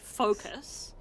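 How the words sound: The first vowel is a long 'oh' sound. "we emphasize quite a lot on the O sound. The we say focus"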